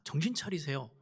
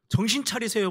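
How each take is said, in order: First: A hushed, firm warning; quiet rebuke. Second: Mock rebuke. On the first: Retold or imitated. Peter quietly urging Jesus, soft firm rebuke. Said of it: "이런 이야기예요". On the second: Peter scolding Jesus, raised rebuking voice. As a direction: shake him awake with a raised voice. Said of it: "큰 소리 치는 거예요".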